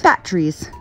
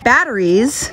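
First: "batteries" squeezed to "batt-trees"; Utah pronunciation. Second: Said in the usual way. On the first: Shown as a demonstration. Teaching Utah speech, "batteries" said as "batt-trees". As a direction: drop the middle vowel of "batteries", two syllables. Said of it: "are called batteries". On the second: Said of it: "batteries are called batteries".

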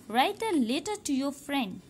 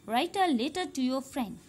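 Both takes have the same delivery.

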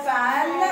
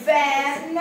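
First: فان starting on an unvoiced F; mispronunciation with F. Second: فان starting on a voiced V; clear V sound. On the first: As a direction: say فان as fan, f in place of v. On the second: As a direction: say فان as English van, buzzing the first sound. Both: Shown as a demonstration. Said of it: "محدش يقولها فان".

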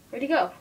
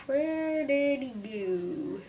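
First: Said in the usual way. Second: Very slow, stretched-out calling question; drawn-out question. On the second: Pretend. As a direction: stretch every word of the question way out.

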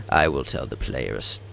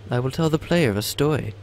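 First: Lower, grave entity voice by mistake; wrong character voice. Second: Higher lighter entity voice; corrected character voice. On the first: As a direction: slip into the deep second entity. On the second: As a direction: switch back to the lighter first entity. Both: Acted. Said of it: "I probably mixed up the voices".

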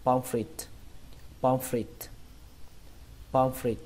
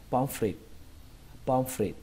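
First: "pomfrit" with the final t released in a puff; bật âm t cuối. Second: "pomfrit" with no puff on the final t. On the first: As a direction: finish "pomfrit" on an audible aspirated t. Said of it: "chúng ta nối lại". (đọc "pomfrit" có bắn hơi âm t) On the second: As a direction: stop "pomfrit" short, t left unreleased. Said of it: "Chúng ta bỏ âm t bắn hơi". (đọc "pomfrit" không bắn hơi âm t) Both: Shown as a demonstration.

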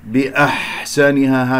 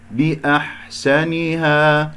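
First: بأحسنها with ح slipping toward ه; muddy the ح of بأحسنها into an h; wrongly tinged ha. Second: بأحسنها slowly chanted, a clean throat ح; pure ha. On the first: Teacher showing a mistake, slow بأحسنها with ه colouring the ح. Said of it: "هكذا خطأ". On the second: Teacher giving the correct take, slow recitation with pure ح in بأحسنها. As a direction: stretch it out, keeping the ح free of ه. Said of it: "هكذا بارك الله فيكم". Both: Shown as a demonstration.

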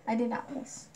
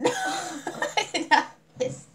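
First: Said in the usual way. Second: Much higher, very slow through laughter; laughing denial. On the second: Real, not acted. Denying the accusation to her friend, laughing. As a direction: deny it while cracking up.

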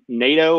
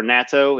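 First: Nato as NAY-toe, like the treaty organization; first guess at nato, NAY-toe; alternative pronunciation. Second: Nato as NAH-toe, with an open A; second guess at nato, NAH-toe; alternative pronunciation. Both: Shown as a demonstration. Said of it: "I don't know how they pronounce it".

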